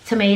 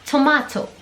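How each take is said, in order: First: It is said with an American accent. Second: It is said with a British accent. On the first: "les Américains ils vont dire euh, tom tomato" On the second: "et ici ils vont dire tomato"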